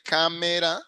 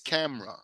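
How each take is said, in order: First: The word is said with three syllables. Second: The word is said with two syllables. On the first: The speaker calls it wrong. "they don't say camera" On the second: The speaker calls it right. "they usually pronounce two syllables"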